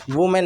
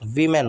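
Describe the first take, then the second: First: "वुमेन" as woo-men; U vowel. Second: "वीमेन" as vee-men; I vowel. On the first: Teacher shows the mistake, "वुमेन" starting with "वु". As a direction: wrongly round the first vowel in "वुमेन". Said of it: "नहीं होता". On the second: Teacher corrects learners, "वीमेन" starting with "वी". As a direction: use an "ई" sound to start "वीमेन". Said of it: "वीमेन होता है". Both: Shown as a demonstration.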